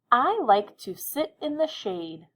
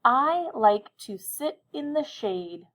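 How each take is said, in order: First: Slow, higher, clear dictation. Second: Higher and even slower, every word clear; slow dictation again. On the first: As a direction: read it slowly for writing. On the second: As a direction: repeat slowly for the listeners. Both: Shown as a demonstration. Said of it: "I'll say it again, listen carefully".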